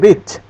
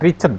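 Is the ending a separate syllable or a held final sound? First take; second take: held sound; separate syllable. First: The final d sound is held, not released. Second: The ending is said as an extra syllable. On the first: The speaker calls it right. "pakai D tapi direm" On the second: The speaker calls it wrong. "bukan Richard ya"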